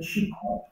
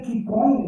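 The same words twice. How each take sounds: First: The word is said with its Chinese pronunciation. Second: The word is read letter by letter as spelled. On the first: This is how it is actually pronounced. "A pronúncia seria Qigong" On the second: This is how it is written. "escreve Qigong"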